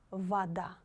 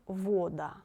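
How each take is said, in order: First: The first vowel sounds like a. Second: The first vowel sounds like o. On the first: The speaker calls it right. "the letter O should be pronounced like A" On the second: The speaker calls it wrong. "not вода"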